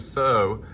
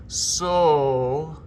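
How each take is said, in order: First: "so" said with a sliding "oh-oo" diphthong. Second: "so" sung as a pure round O. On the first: Choir director showing singers the wrong "so". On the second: Choir director showing singers the right "so". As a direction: shape "so" tall and round. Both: Shown as a demonstration. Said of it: "instead of so".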